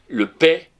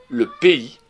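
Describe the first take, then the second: First: The word is said as one syllable, like paix. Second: The word is said as two syllables, pé-i. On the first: The speaker calls it wrong. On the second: The speaker calls it right.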